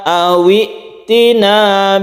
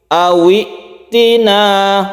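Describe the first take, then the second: Both takes have the same delivery.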